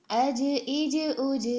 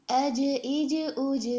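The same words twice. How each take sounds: The two takes are said the same way.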